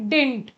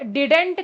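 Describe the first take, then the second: First: The word is squeezed into one syllable. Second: The word is said with two full syllables. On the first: The speaker calls it right. "ये सही pronunciation होता है इसका" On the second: The speaker calls it wrong. "डिडेंट करके मत बोलना"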